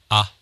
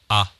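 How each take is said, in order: Both takes have the same delivery.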